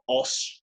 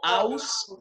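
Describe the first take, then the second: First: The vowel sounds like an o. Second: The vowel sounds like a and u. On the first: The speaker calls it right. "sino os" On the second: The speaker calls it wrong. "No aus"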